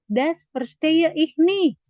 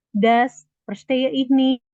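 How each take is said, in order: First: Drawn out and pitched up; slow teacher model; slow model phrase. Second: Slow model phrase. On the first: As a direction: spell it out slowly for learners. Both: Shown as a demonstration.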